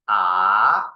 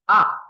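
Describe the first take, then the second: First: The pitch rises from middle to high. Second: The pitch falls sharply from high to low. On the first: "The second tone is R" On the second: "And fourth tone is R"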